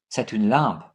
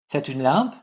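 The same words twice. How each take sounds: First: Low, settled fall on "lampe"; falling intonation. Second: "lampe" rising as a question; rising intonation. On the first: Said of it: "with falling intonation". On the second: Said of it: "pronounced like a question with raising intonation". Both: Shown as a demonstration.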